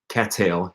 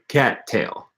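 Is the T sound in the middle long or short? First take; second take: short; long. First: The T sound in the middle is short. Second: The T sound in the middle is held long. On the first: The speaker calls it wrong. "you wouldn't say" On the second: The speaker calls it right. "you would say"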